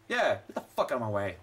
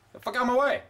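First: Low grumbled get the fuck out of my way; low mutter. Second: Pushy retort. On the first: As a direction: mutter it under your breath, annoyed. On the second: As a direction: get the fuck out of my way, pitched up with a rising end. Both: Real, not acted. Shoving past NPCs in game.

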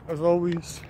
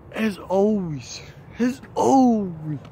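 First: Said in the usual way. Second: Drawn-out building catchphrase. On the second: Pretend. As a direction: stretch it out, building up.

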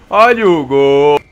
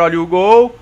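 First: Louder, slow drawn-out call; goal call. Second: Said in the usual way. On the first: Real, not acted. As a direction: stretch it out for the goal. Calling out the goal.

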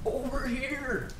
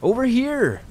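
First: Slow, high, distant mimic call; echoing yell. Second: High-pitched shouted call; yelling back. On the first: Unseen creature mimicking the hunter, slow soft high echo. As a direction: stretch it out like a faint, eerie echo. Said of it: "yell back to me". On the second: Lost hunter answering a call in the woods, high yell. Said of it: "I yelled back". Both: A narrator's reading.

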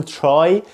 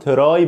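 First: "try" as "chry"; correct American TR. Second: "try" as "te-rai"; wrong TR pronunciation. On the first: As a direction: say "try" with sh between t and r. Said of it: "بقول try". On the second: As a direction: say "try" with a separate t and r. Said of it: "مش بقول try". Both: Shown as a demonstration.

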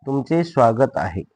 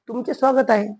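First: Drawn-out teacher's repeat; slow dictation. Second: Said in the usual way. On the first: Shown as a demonstration. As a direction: say it slowly, word by word. (सावकाश लिहून घेण्यासाठी सांगणे)

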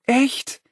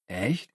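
First: Much higher rising Echt; high surprised echo. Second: Soft doubtful question; quiet doubt. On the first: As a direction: toss back Echt high and lively. Niles echoes brightly. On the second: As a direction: ask it quietly, unsure. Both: Acted.

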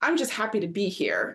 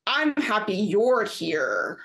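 First: Said in the usual way. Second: Slow, stretched-out mock drawl; a slow smug drawl; long drawl. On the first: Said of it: "but she goes". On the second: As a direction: drag each word out, imitating him. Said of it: "in, like, this long drawl".

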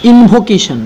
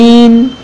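First: Said in the usual way. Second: Long pauses between ইন, ভো, কে, শন in invocation; syllable by syllable. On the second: Shown as a demonstration. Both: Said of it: "এরকম আরও একটি polysyllabic".

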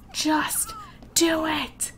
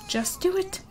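First: Exasperated slow-motion just do it; slow drawn-out plea. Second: High, soft quick nudge; just do it, said up high and light; high urging. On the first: Pleading with her Sim again, very slow and drawn out. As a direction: stretch each word very slowly. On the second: Urging her Sim to change the diaper, high soft nudge. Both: Real, not acted.

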